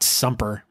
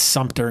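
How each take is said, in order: First: The middle consonant is a p sound. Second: The middle consonant is a t sound. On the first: The speaker calls it wrong. "not Sumper" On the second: The speaker calls it right. "It's Sumter"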